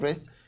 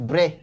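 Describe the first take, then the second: First: The final 'st' sound is pronounced. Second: The final 'st' sound is left silent. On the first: The speaker calls it wrong. "it's not Brest" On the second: The speaker calls it right. "The name is Bre"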